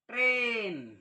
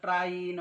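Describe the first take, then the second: First: The vowel sounds like 'ay'. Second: The vowel sounds like 'eye'. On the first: The speaker calls it right. "त्याचा उच्चार देखील एच होतो" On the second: The speaker calls it wrong. "ते असे वाचू शकतात"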